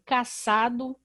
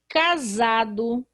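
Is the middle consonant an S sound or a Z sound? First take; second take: S sound; Z sound. First: The middle consonant is a hissing S sound. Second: The middle consonant is a buzzing Z sound. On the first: The speaker calls it wrong. "Se isso não fosse verdade, eu iria ler aqui" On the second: The speaker calls it right. "a letra S está entre vogais e por isso vai ter um som da letra Z"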